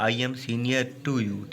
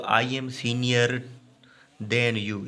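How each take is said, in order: First: Slow reading with "to" drawn out; measured example sentence, "to" standing out; stress on TO. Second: Slow, measured reading with a break before "than"; slow teacher's dictation, "than" set apart; slow example sentence. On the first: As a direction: lean on the word "to", slowly. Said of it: "senior के साथ to लगेगा". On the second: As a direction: read it out slowly, pausing after "senior". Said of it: "ये गलत है". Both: Shown as a demonstration.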